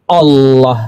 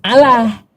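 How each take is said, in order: First: The L is said thick and heavy. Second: The L is said thin and light. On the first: The speaker calls it right. "tafkhim Allah gitu pengucapannya" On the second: The speaker calls it wrong. "Bukan Allah"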